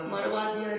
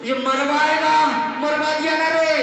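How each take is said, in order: First: Quiet, stretched-out mock wail; subdued echo of a wail; soft lament. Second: High, loud, drawn-out lament; exasperated shouted wail. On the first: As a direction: let the complaint out softly and long. Same lament repeated as moral. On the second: Acted. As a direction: cry out in comic despair, stretching the words. Beaten thief wails at blunderer.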